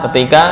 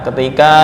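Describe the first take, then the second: The two takes are said the same way.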